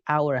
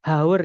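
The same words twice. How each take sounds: First: "hour" said like "our", H dropped; silent H. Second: "haur" for hour, H pronounced; wrong sounded H. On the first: Teacher correcting the reading for students, "hour" with silent H. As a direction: begin "hour" straight on the vowel. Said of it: "Hanya nggak dibaca". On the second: Teacher warning students off a mistake, "haur" with sounded H. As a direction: say "haur" with an audible H, as a wrong example. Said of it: "bukan haur ya". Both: Shown as a demonstration.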